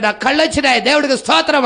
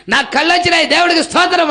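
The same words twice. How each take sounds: First: Mild retold shout. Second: Higher, louder mock cry of praise; retold joyful shout. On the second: Healed blind man shouting thanks to God, loud. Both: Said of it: "పెద్దగా కేకలు పెడతా వెళ్తా ఉంటాడు".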